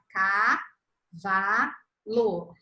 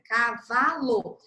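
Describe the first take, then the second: First: "Cavalo" drawn out very slowly, each syllable apart; "Cavalo" bem devagar, sílaba por sílaba; syllables stretched out. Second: "Cavalo" slowly split into ca, va, lo; sílabas de "Cavalo" separadas; slow syllables. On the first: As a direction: spell out "Cavalo" one slow beat per syllable. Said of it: "Ela vai pegar". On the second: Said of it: "da esquerda aqui pra direita". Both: Shown as a demonstration.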